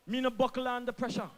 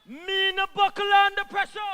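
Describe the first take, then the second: First: Said in the usual way. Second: Louder and higher, daring anyone to doubt it; defiant loud repeat. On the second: Real, not acted. Minister answering critics, loud defiant repeat. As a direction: rise up on the second take. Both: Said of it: "repeats line for emphasis".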